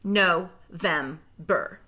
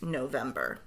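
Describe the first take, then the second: First: Slow, split into syllables; No-vember said slowly, split at the syllable break; segmented syllables. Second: Said in the usual way. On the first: Shown as a demonstration. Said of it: "say the syllables in segments". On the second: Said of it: "blend them all back together".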